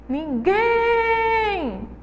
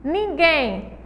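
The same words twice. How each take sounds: First: Ninguém with GUÉM held long and very high; calling the word. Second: Said in the usual way. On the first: Shown as a demonstration. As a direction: call out "Ninguém", stretching the guém. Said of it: "O guem é a sílaba mais forte". (chamar "Ninguém", alongando o guém) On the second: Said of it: "é simplesmente chamar".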